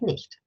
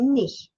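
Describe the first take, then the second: First: The word ends with a pronounced T. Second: The word ends without a final T. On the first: "instead of nicht" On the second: "you say nicht instead of"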